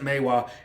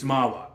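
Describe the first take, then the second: First: The first syllable sounds like 'may'. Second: The first syllable sounds like 'mah'. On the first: The speaker calls it wrong. "I know sometimes you pronounce it Maywa" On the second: The speaker calls it right. "It's Mawa"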